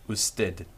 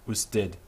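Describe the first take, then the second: The two takes are said the same way.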